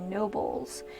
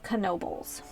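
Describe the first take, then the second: First: The name is pronounced the way it is spelled. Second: The name is pronounced the way local people say it. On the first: This is how outsiders reading the name would say it. "the proper way of saying the last name would be Nobles" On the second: This is how people from the area say it. "locally, it's Knoebels"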